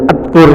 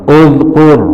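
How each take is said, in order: First: The word begins with an 'a' vowel. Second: The word begins with a 'u' vowel. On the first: The speaker calls it wrong. "Bacanya atkur gitu ya, nggak bisa" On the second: The speaker calls it right. "hamzahnya dibaca doma"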